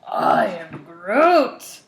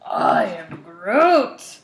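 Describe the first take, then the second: First: It is said in an overly dramatic way. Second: It is said in an overly dramatic way.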